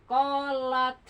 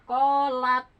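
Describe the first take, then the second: No difference in how they are said.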